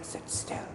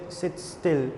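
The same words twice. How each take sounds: First: It is said in a whisper. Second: It is said in a normal voice.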